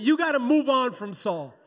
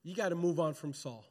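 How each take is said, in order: First: Loud, emphatic, raised pitch; preacher rousing the congregation to repeat it; like you mean it. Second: Said in the usual way. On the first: Shown as a demonstration. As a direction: belt it out with full conviction. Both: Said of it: "say it like you mean it".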